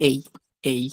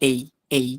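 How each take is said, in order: No difference in how they are said.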